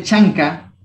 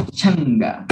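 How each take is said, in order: First: Chanca with a K sound; spelled form. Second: Changa with a voiced G; spoken form. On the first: Teacher shows how chanca is written, pronounced with a K. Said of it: "Se escribe chanca". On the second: Teacher shows how changa is really pronounced, with a voiced G. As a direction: say "changa", softening the K to G. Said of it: "pero se pronuncia changa". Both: Shown as a demonstration.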